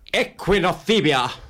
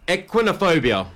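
First: It is said in a dramatic way. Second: It is said in a plain way.

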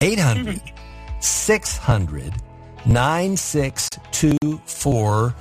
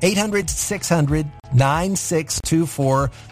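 First: The number is said at a slow pace. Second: The number is said at a fast pace.

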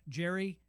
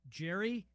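No difference in how they are said.

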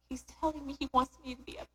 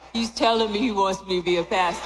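First: It is said in a plain, weak voice. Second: It is said in a stronger put-on voice.

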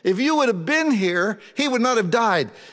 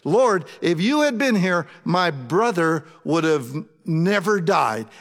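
First: It is said as an accusing rebuke. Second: It is said as a trusting statement of faith.

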